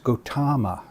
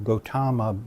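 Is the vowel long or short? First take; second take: long; long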